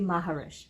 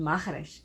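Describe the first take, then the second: First: The name has an English pronunciation. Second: The name has a Portuguese pronunciation. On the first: This is an easier version for English speakers. "in English, it's wait is uh, easier to say" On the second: This is how the name is really said. "the correct pronunciation"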